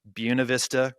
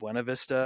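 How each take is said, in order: First: It is said the local way. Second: It is said the outsider way. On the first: The speaker is from the area. The speaker calls it right. "if you're from Colorado, you know that's Buena Vista" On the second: The speaker is not from the area. The speaker calls it wrong. "rather than Buena Vista"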